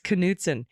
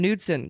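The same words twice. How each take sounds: First: The name starts with a K then N. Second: The name starts with a plain N sound. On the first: The speaker calls it right. "Got to pronounce the K" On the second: The speaker calls it wrong. "like we were doing the silent K"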